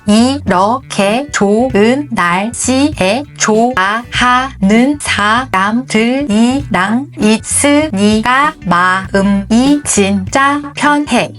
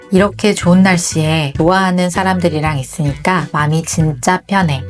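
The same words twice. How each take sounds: First: Each syllable is crisply separated, staccato-like. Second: The syllables are slurred together and mumbled. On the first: The speaker calls it right. "음절을 하나하나 스타카토처럼 딱딱 발음해 주는 게" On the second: The speaker calls it wrong. "발음이 부정확한 분들은 이 문장을 이렇게 읽을 확률이 있습니다"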